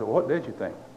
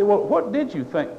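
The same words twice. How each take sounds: First: The question sounds gentle and curious. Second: The question sounds harsh and challenging. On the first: The listener is being asked kindly. The speaker calls it right. "I say" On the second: The listener is being scolded for not thinking. The speaker calls it wrong. "I don't say it in that tone"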